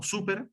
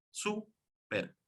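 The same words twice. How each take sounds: First: Said in the usual way. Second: "Súper" split into sú, per with a gap; syllable by syllable. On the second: Shown as a demonstration. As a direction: say "Súper" as two separate syllables, first one higher. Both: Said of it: "dos sílabas".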